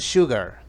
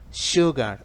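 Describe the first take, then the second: First: It is said in an American accent. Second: It is said in a British accent. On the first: "En americano" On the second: "Lo estoy pronunciando imitando el acento británico"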